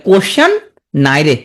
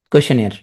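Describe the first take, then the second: First: "কোশ্চেন" rising, pause, then "নাই রে"; mnemonic pronunciation. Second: Said in the usual way. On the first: Shown as a demonstration. Teacher drilling the spelling trick, in two separate pieces. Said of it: "মনে মনে উচ্চারণ করলে". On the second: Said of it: "পড়বা কি হবে".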